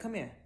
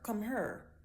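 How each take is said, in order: First: The last word sounds like 'here'. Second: The last word sounds like 'her'. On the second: "If you're from Memphis or Saint Louis, you might say her"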